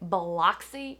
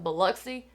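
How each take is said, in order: First: It is said the way an outsider would. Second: It is said the way Southern locals do. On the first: The person saying it is not really from the South. The speaker calls it wrong. "Anytime you hear somebody say Biloxi" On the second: The person saying it is really from the South. The speaker calls it right. "instead of Biloxi"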